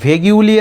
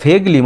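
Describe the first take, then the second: First: A 'yoo' sound follows the g. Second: No 'yoo' sound follows the g. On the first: The speaker calls it wrong. "ভেগিউলি এরম উচ্চারণ করবে না" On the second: The speaker calls it right. "এটা ভেগলি"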